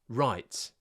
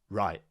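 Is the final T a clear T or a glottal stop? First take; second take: clear T; glottal stop. First: The final T is clearly released. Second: The final T becomes a glottal stop.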